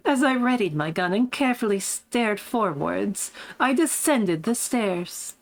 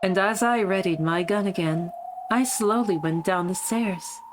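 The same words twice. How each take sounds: First: Smug posh voice. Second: Lightly faked British accent; a hint of put-on posh British; Beatrice. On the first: Acted. Streamer finding the character's voice again, lightly smug and posh. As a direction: recount it with a touch of posh poise. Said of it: "what was that voice again?". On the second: Streamer voicing the wrong character, lightly faked British accent. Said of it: "my shitty Beatrice voice for her".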